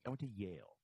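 The voice falls at the end, like a statement.

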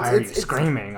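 It is read in a put-on villain voice.

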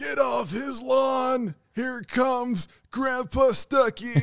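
It is said in an old man voice.

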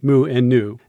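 The letter names are said the English way. "in English we tend to say"

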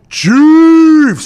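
The word is said in a deep, low voice. The speaker calls it right. "It is a deep, low Chiefs"

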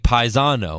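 The name is said with an Italian pronunciation. "if you were, like, in Italy, it'd be"

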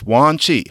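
The name is said with an American pronunciation. The speaker calls it wrong. "In an American accent"

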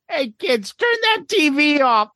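It is said in a put-on character voice. The speaker calls it right.

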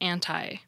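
It is said with an American pronunciation. "where American English has anti"

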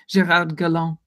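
The name is pronounced with a French accent. This respects the person's heritage. "if we're all paying respect to his heritage"

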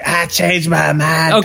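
It is a put-on young boy's cartoon voice. "Bobby Hill's like"

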